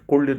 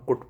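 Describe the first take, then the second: First: The word is said with an L sound. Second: The word is said without an L sound. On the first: The speaker calls it wrong. "कुल्ड नहीं पढ़ेंगे" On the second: The speaker calls it right. "L silent होगा तो इसको हम कुड पढ़ेंगे"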